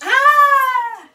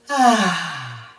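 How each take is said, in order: First: It sounds like a sudden shocked cry. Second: It sounds like a relieved exhale.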